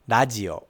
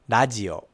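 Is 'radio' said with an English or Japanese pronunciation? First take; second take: Japanese; Japanese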